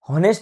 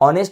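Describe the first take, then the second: First: The word starts with an h sound. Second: The word starts with a vowel, no h. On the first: The speaker calls it wrong. "हॉनेस्ट म्हणत नाही" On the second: The speaker calls it right. "तर ऑनेस्ट म्हणतो"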